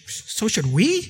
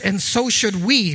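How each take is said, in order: First: It is said as a questioning rise. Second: It is said as a plain statement.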